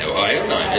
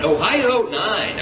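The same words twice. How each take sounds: First: Said in the usual way. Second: Slow, stressed "Ohio nine" falling at the end; emphatic repeat. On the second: Shown as a demonstration. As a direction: drive home "Ohio nine" slowly, each word hit. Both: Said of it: "that's right".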